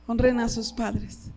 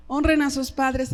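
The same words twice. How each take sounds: First: "Honren" stressed, said slowly and lower; slow it down and lean on "Honren"; slow, emphatic repeat. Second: Said in the usual way. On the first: Shown as a demonstration. Pastor urging the young people, slow and emphatic.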